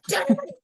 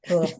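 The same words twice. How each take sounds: First: It is said with fiery, forceful energy. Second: It is said softly, like a cat purr.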